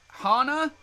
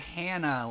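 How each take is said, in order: First: The first vowel sounds like the one in 'Han'. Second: The first vowel sounds like the one in 'hand'. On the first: "like Han Solo" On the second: "like hand job"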